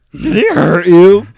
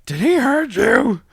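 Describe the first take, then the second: First: High, slow, loud silly voice; loud high put-on voice. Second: High, slow, shrill-free squeak of worry; high put-on voice. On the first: Echo, louder higher. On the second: Bobcat quoted, high far.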